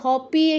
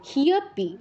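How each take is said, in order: First: The first syllable is a plain ha sound. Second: An h is touched, then a y glide follows. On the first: The speaker calls it wrong. "এসব বলা যাবে না" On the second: The speaker calls it right. "হতে touch করে ইয় এর উচ্চারণ"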